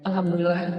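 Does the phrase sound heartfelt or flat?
flat. It is said casually, without much feeling. The words are said without real gratitude. The speaker calls it wrong. "Beda dengan"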